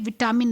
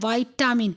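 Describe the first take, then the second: First: The first syllable has a short 'vi' sound. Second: The first syllable has a long 'vai' sound. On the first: The speaker calls it wrong. "विटामिन नहीं बोलना चाहिए" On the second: The speaker calls it right. "उसका असली pronunciation है वाइटामिन"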